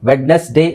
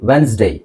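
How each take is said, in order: First: The d sound in the middle is pronounced. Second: The d sound in the middle is silent. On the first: The speaker calls it wrong. "ವೆಡ್ನೆಸ್ಡೇ ಅಲ್ಲ" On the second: The speaker calls it right. "ಡಿ silent ಆಗಿರುತ್ತೆ"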